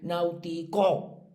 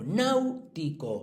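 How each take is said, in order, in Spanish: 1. El acento recae en una sílaba posterior. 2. El acento recae en la primera sílaba. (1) "vosotros no decís náutico" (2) "sí"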